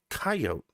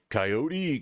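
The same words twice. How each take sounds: First: The final E is silent. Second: The final E is sounded. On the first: The speaker calls it right. "there is such a concept as the silent E. So it's coyote" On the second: The speaker calls it wrong. "just wrong"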